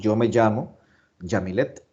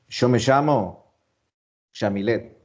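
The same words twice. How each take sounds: First: It has a Spanish-style y sound. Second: It has an Argentine 'sh'-like y sound.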